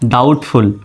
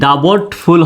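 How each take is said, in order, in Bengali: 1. b নীরব, তাই শুধু একটি সাধারণ t শোনা যায়। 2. b ধ্বনিটি t-এর আগে উচ্চারিত হয়। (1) "কিন্তু হবে কি ডাউটফুল" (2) "ডাবটফুল হওয়ার কথা ছিল"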